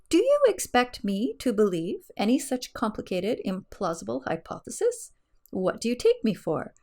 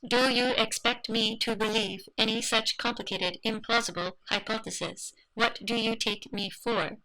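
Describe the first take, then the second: First: It is read in a natural human voice. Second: It is read in a flat robotic voice.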